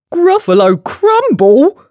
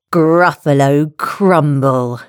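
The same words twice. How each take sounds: First: High, loud, rising disbelief; hammed-up monster panic; alarmed question. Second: Slow, deliberate dish name; measured, drawn-out reveal; slow announcement. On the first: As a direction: squawk it back as a frightened question. Gruffalo repeats it in alarm. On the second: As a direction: spell out the threat slowly. Mouse's menacing announcement. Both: A narrator's reading.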